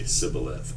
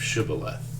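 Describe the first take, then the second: First: The word begins with an 's' sound. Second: The word begins with an 'sh' sound.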